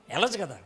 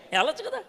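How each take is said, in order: First: "వెళ్ళొచ్చు కదా" falling, stress on వెళ్ళొచ్చు; settled answer. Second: "వెళ్ళొచ్చు కదా" asked with a high rising కదా; questioning rise. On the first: Preacher to church, answering his own question with a falling statement. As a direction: answer it yourself, firmly down. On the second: Preacher to church, asking whether one can go directly, rising. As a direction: tune it up at the end, as a question. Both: Shown as a demonstration.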